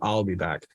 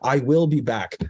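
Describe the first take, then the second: First: The word 'will' is contracted to 'I'll'. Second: The word 'will' is said in full. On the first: The speaker calls it right. "Now it's iconic saying" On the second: The speaker calls it wrong. "I will say it like this because it's more like a machine"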